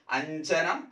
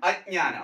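First: അഞ്ജനം said slowly with ഞ്ജ; contrast word. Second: അജ്ഞാനം said with ജ്ഞാ and a long ആ; contrast word. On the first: Teacher to exam students, contrasting അഞ്ജനം. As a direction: slowly say അഞ്ജനം to set it apart. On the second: Teacher to exam students, clear contrast അജ്ഞാനം. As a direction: say അജ്ഞാനം clearly against അഞ്ജനം. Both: Shown as a demonstration. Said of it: "അത് തമ്മിൽ തിരിയരുത്".

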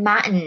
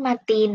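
First: "Martin" with the middle T left out; dropped T. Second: Said in the usual way. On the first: Shown as a demonstration. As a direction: say "Martin" as Mar'n, T swallowed. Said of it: "เขาชอบตัดตัว T". (ออกเสียง "Martin" แบบตัดตัว T ตรงกลางทิ้ง) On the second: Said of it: "ทำไมเขาไม่พูด Martin".

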